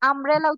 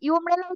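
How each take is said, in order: First: The word begins with an 'uh' sound. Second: The word begins with a 'yoo' sound. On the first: The speaker calls it right. "আমব্রেলা উচ্চারণ করি।" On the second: The speaker calls it wrong. "এটা কি ইউমব্রেলা উচ্চারণ করি? করি না"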